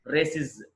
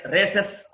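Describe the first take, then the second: First: రేసిస్ as "ray-siz"; "-iz" ending. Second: రేసెస్ ending in an open "-es"; wrong plural ending. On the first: Teacher correcting learners' plural, రేసిస్ as "ray-siz". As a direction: end రేసిస్ on a short i and buzzed z. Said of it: "ఇజ్". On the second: Teacher warning learners off a mistake, రేసెస్ as "ray-sess". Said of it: "అనకూడదండి". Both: Shown as a demonstration.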